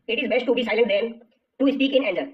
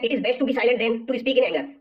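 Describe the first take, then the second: First: Said in the usual way. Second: Very slow, every word of "It is best to be silent than to speak in anger" laid out separately; slow deliberate reading. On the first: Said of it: "repeats the sentence slowly". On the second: Shown as a demonstration. Teacher slowly rereads the exam sentence for students, very slow. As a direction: read it out slowly so the class can follow each word. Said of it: "तो दोस्तों यहाँ पर दिया गया है".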